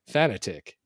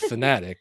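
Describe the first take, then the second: First: It sounds like the two words fan attic. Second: It is said as the usual single word. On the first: The speaker calls it wrong. "I was saying fanatic" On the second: The speaker calls it right. "I wasn't saying fanatic"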